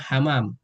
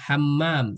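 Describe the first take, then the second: First: The middle m is short and single. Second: The middle m is held long and doubled. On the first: It means pigeon. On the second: It means toilet.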